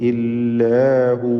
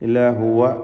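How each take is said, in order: First: The last word ends without a vowel. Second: The last word ends with a short vowel.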